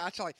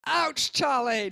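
First: Said in the usual way. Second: Loud, drawn-out mimicked "ouch"; hammed-up yelp, higher and stretched out; mock pained cry. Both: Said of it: "No, I wasn't really like".

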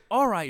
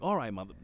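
First: Higher and louder, a quick grudging all right; dad's first try. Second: Said in the usual way. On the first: Retold or imitated. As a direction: toss it off higher, half-agreeing. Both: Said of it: "He's like".

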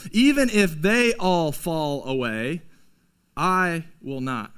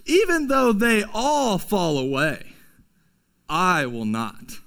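First: Slow, proud vow sinking lower; a light echo of Peter's boast; boastful Peter. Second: A lightly voiced boastful Peter. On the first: Retold or imitated. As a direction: swear it with pride. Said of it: "we have the same heart as Peter". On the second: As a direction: puff up like a proud disciple. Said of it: "Peter says".

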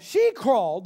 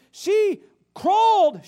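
First: Said in the usual way. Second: Crawled drawn out slow, high and loud; crawled, slow and emphatic; slow stressed crawled. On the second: Shown as a demonstration. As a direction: stretch out crawled with full weight.

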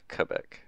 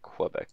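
First: "Quebec" with no w, starting "kuh"; "Quebec" opening on a plain k and short vowel; Quebec as kuh-BEC. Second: "Quebec" with a w after the k; "Quebec" opening on a "kw" sound, American style; Quebec as kweh-BEC. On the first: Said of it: "It's not Quebec". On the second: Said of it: "chances are you say Quebec". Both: Shown as a demonstration.

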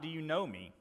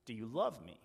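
First: "know" leaned on with a falling end; weight on "know", not the verb love; stress on know. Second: Weight on "love" as the real question; stress on love. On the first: Preacher quoting the question Jesus did not ask, stress on know. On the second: Preacher quoting Jesus asking Peter, stress on love. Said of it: "Jesus says". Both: Shown as a demonstration.

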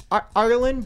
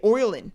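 First: Said in the usual way. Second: Oireland with an oy sound, in an Irish accent. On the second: Shown as a demonstration. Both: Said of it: "I could only sound Irish when saying Ireland".

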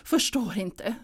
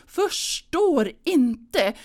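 First: Said in the usual way. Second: Förstår inte said slow and louder, leaning hard on förstår; emphatic repeat. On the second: Retold or imitated. Mother at Christmas insisting: slow, higher, louder Förstår inte. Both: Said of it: "säger hon".

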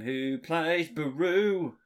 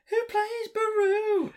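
First: Said in the usual way. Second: Squeaky high-pitched repeat of the question; high silly voice. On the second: Acted. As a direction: ask it again in a cartoonish falsetto.

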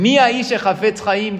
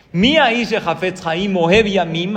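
First: "Mi aish hafetz haim" slow and louder, stress on "Mi"; slow emphatic verse. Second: "Mi aish hafetz haim ohev yamim" slow, louder, rising at the end as a question; verse as a question. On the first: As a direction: lean hard on "Mi". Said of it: "Escuchen bien". (énfasis lento en "Mi") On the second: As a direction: ask it slowly. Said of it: "ahí acaba la pregunta". (como pregunta, tono ascendente lento) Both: Shown as a demonstration.

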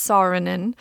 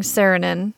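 First: Saarinen said as SAR-uh-nen, open ah vowel; correct pronunciation. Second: Saarinen said as SAIR-uh-nen, flat Wisconsin a; Wisconsin pronunciation. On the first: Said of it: "but it's Saarinen". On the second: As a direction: Saarinen with a broad Midwestern SAIR vowel. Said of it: "phase into my Wisconsin accent and start saying Saarinen". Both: Shown as a demonstration.

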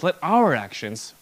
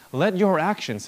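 First: OUR punched louder; "our" stands out strongly; stress on OUR. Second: YOUR stressed, phrase raised and louder; "your" as the prominent word. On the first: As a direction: hit the word "our" to include everyone. Rewords your as our. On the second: Contrasts your with our actions. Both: Real, not acted.

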